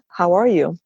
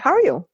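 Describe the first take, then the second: First: Each word is said clearly and separately. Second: The words are slurred and run together.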